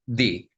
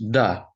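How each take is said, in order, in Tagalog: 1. Ang patinig ay parang 'ee'. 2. Ang patinig ay parang 'uh'. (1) "ay di ang bigkas niya" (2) "the is pronounced da or du"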